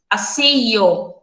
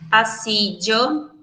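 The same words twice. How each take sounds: First: The double L sounds like a y sound. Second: The double L sounds like a dj sound. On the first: "como se fosse um, um I, um Y" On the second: "A gente pode pronunciar ele como se tivesse D J"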